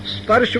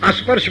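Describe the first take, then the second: First: The word starts directly with the consonant cluster. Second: A vowel is added before the consonant cluster. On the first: The speaker calls it right. "स्पर्श बोलो" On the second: The speaker calls it wrong. "तो अस्पर्श बोलेगा"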